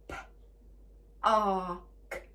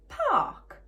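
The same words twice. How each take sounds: First: PARK split into p, ar, k; segmented phonics demo of "park"; sounded out. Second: PARK as one word, high and falling; blended word. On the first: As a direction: say P, AR, K with gaps between. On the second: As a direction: say PARK whole, louder and high. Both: Shown as a demonstration. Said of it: "three sounds".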